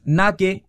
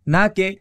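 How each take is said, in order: No difference in how they are said.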